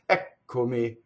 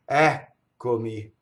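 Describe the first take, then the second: First: The first vowel is short, with no stop. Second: The first vowel is long, then stops before k. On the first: The speaker calls it wrong. "the singer will shorten the first like this" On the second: The speaker calls it right. "you're going to have a long vowel, and then you're going to stop phonation"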